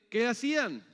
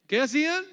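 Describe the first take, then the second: First: Said in the usual way. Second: Much higher, louder rising question; loud prompting. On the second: Real, not acted. Preacher re-asking the congregation, loudly prompting. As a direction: call it out to get an answer. Repeats question to draw an answer.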